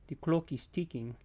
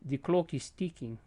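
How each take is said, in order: Both takes have the same delivery.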